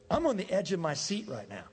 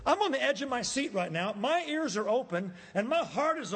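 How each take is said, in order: First: Said in the usual way. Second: Eager. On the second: Shown as a demonstration. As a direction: lean in with excitement.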